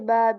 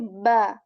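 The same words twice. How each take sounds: First: The lips close lightly on the sound. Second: The lips close with strength on the sound. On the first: "people can say just ba very lightly as well" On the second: "when we say that with strength, that is, you know, that makes it beautiful"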